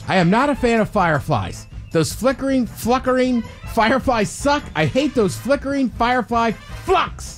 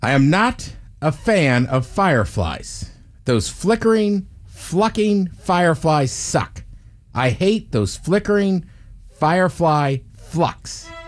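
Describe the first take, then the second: First: It is read quickly. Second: It is read at a normal speed.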